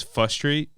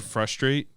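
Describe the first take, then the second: First: "fustrate" with the R after F dropped; missing R. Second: Said in the usual way. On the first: Retold or imitated. Podcaster quoting a comedian's slip, R dropped in "fustrate". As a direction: say "fustrate", leaving out the first R. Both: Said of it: "without the R".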